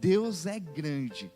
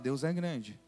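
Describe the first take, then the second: First: It is said with high, passionate energy. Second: It is said with low, flat energy. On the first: The speaker is still full of first love. The speaker calls it right. "Quando a gente lembra do primeiro amor" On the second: The speaker still believes it but lacks intensity. The speaker calls it wrong. "Quando a gente está vivendo um evangelho parcial"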